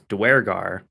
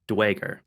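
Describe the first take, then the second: First: The parts are run together into one word. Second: The word is run together with the r dropped. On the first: "They match it together as Duergar" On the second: "they're leaving off the R, so it becomes Dwager"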